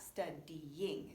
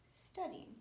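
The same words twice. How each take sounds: First: "studying" broken slowly into separate syllables, stud-dy-ying; over-separated syllables. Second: "studying" said smoothly as one connected word; syllables run together. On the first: Teacher showing learners the wrong split, syllables pulled apart. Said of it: "It's not studying". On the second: Teacher correcting the over-split word, syllables joined smoothly. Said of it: "it's studying". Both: Shown as a demonstration.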